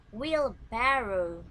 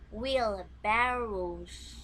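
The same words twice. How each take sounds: First: Wheelbarrow drawn out, louder; slow model word. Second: Wheelbarrows dragged out very slowly; very slow plural model. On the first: Teacher modelling Wheelbarrow for pupils to repeat, slow. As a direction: say Wheelbarrow slowly for repetition. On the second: Teacher modelling the plural Wheelbarrows, very slow. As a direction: stretch Wheelbarrows to show the final s. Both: Shown as a demonstration. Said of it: "you repeat my pronunciation".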